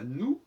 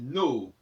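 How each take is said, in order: First: The vowel is a plain 'oo' sound. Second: An 'o' sound is heard before the 'oo'. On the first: The speaker calls it wrong. "Non pas nous" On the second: The speaker calls it right. "mais nos"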